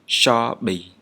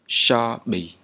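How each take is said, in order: First: The first consonant is an 'sh' sound. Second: The same.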